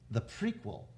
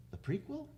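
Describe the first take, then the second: First: Said in the usual way. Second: Doubtful rising question; unsure, checking the word prequel. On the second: Real, not acted. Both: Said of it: "Sorry, the sequel".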